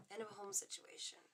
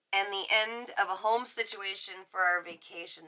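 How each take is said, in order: First: Breathy, unvoiced whisper of End of a home situation; softer whispered musing; whispering to herself. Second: Said in the usual way. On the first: Real, not acted. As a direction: mutter it to yourself while absorbing the card. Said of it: "am I doing that out loud? Is that my, uh, outdoor voice inside?". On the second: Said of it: "am I doing that out loud?".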